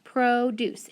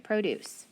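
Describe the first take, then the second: First: PRODUCE as two even, stretched beats, "proh-doose"; careful teaching "PROH-DOOSE" for PRODUCE; syllable by syllable. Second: Said in the usual way. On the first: Shown as a demonstration. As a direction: sound out PRODUCE with a full long O. Testing the sounded-out word.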